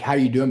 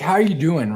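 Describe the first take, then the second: First: It is asked as a quick casual greeting. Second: It is asked sincerely, with real interest.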